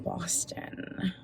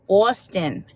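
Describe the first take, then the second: First: It is said in her ordinary Minnesota accent. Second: It is said in a put-on Boston accent.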